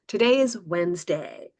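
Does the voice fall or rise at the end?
fall. The voice falls at the end. The speaker calls it right. "so they can hear the contrast"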